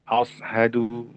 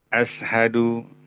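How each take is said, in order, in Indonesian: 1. Konsonan di tengah adalah bunyi s yang tebal dan emfatis. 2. Konsonan di tengah adalah bunyi s yang tipis dan biasa. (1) "atau mungkin huruf sod ya" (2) "merubah huruf sya dengan sin"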